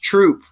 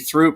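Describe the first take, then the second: First: The word begins with a plain t sound. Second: The word begins with a th sound. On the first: The speaker calls it right. "It's Troop" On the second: The speaker calls it wrong. "I always say Throop because it's T H R O O P"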